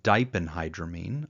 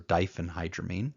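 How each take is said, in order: First: The 'ph' is said without an f sound. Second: The 'ph' is said with an f sound. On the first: "I pronounce the first one" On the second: "I've heard other people make a f sound"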